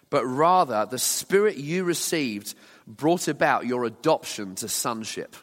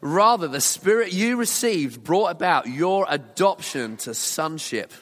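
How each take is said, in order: First: It is read calmly, without much excitement. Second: It is read with lively excitement.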